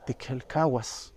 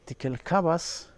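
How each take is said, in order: First: The last syllable starts with a w sound. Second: The last syllable starts with a v sound. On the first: "el wa de la última sílaba" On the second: "también la pronuncian como va con la v"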